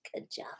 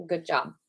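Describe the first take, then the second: First: Soft whispered good job. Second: Said in the usual way. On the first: Shown as a demonstration. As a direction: whisper it to the class. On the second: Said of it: "Good job (whisper)".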